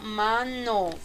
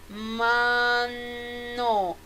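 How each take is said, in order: First: The word is said at a faster pace. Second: The word is said at a slower pace. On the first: "Más rápido" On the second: "Pronunciándolo unido"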